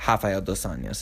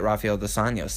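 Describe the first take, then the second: First: The R at the start sounds like H. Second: The R at the start sounds like R. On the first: The speaker calls it right. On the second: The speaker calls it wrong.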